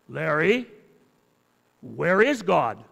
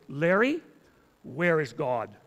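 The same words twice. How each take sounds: First: It is said in an even sterner voice. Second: It is said in a stern voice.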